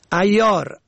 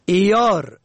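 First: ایار said "ayyar"; fatha on first. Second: ایار said "iyar"; i-sound starting ایار; kasra on first. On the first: Teacher shows ایار for "clever", pronounced ayyar. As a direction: open a starting ایار. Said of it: "به فتح اول". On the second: Teacher shows ایار for "assaying", pronounced iyar. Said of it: "به کسر اول". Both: Shown as a demonstration.

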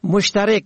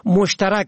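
First: مشترک said "moshtarek"; short e in last syllable of مشترک; kasra on fourth. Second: مشترک said "moshtarak"; fatha on fourth. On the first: Teacher shows مشترک for "subscriber", pronounced moshtarek. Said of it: "به کسر چهارم". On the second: Teacher shows مشترک for "shared", pronounced moshtarak. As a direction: open a in last syllable of مشترک. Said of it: "به فتح چهارم". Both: Shown as a demonstration.

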